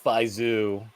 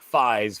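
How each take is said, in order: First: The name ends with an added final vowel. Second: The name ends on a consonant, no final vowel. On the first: This is how it is said in Japanese. "the way that they pronounce it in Fies is Faizu" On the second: This is the shortened English way of saying it. "we always shorten it to just being like Fies for English pronunciation"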